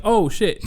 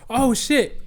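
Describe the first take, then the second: First: Quick mildly raised oh shit; startled oh shit. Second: "Oh shit" jumped very high in pitch; a sudden yelp of alarm. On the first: Sitting on the van door as mom brakes, startled. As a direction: caught off guard as the van jerks. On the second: Swinging out with the van door, alarmed high yelp. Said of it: "And I'm like". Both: Retold or imitated.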